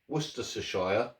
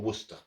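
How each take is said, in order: First: The word is said in full, ending in 'shire'. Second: The word is shortened, with no 'shire' ending. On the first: "it does say Shire in the end" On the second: "we shorten words a lot"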